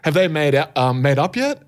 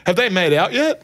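First: Said in the usual way. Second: Higher-pitched blurted question; blurted interruption. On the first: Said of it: "I wanted to say". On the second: Retold or imitated. Retelling butting in on a group of people, blurted interruption. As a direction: imitate butting in with an ill-timed question. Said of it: "interrupted people and was like".

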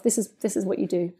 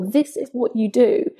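First: Soft, murmured "This is, this is what you do." to oneself; calm your own nerves in a hush; hushed private reminder; quiet self-talk. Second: Each word of "This is what you do." laid down slowly and deliberately; slow, emphatic "This is what you do."; slow, weighty repeat. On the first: Retold or imitated. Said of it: "I just tell myself". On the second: Shown as a demonstration. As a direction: savour "This is what you do." as a powerful mantra. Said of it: "so powerful".

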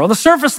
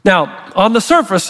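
First: "on the surface" pitched higher, "surface" rising; stressed "surface". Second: Said in the usual way. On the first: Shown as a demonstration. Preacher repeats "on the surface" to the congregation, pitched higher with a rising "surface". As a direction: lift and lean on "surface" so the phrase rises. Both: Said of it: "make sure you stay with me here".

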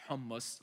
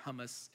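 First: "hummus" said the Arabic way; Arabic pronunciation. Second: Said in the usual way. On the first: Shown as a demonstration. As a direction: say "hummus" as an Arabic speaker would. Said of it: "That's how I say it in my Arabic language". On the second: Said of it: "I don't call it hummus".

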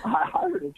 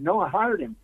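First: Much higher, incredulous rising question; stunned echo. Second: Said in the usual way. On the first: Retold or imitated. Mother hearing her son was hired, high disbelief. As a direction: echo it back in disbelief, pitched way up.

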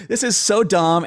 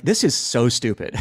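First: Said in the usual way. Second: Chuckling through the words; laughing. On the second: Retold or imitated. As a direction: laugh while you say it. Laughing at himself, laugh heard.

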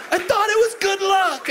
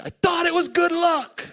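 First: High, louder mock shout of Andy's line; hammed-up yell. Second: High, pleading mock voice of Andy; mock whiny Andy. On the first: Andy's line yelled up high and hammed. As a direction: belt it high and loud, half laughing. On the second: Imitating Andy's high whine about the broken board. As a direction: whine it up high like a wounded friend.

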